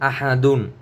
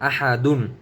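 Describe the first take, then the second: No difference in how they are said.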